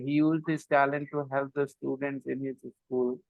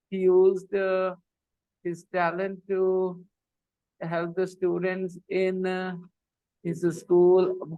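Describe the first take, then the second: First: It is read with all words run together. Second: It is read with hesitant pauses mid-phrase. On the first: The reader has no idea what they read. "they go all words together" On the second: Nothing is understood of what was said. "they stop at the wrong places"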